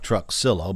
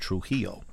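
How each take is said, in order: First: It is read as spelled, with an x sound. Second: It is given a guessed Spanish pronunciation. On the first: "It looks like Truxillo" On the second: "I'm just taking a guess at the Spanish pronunciation"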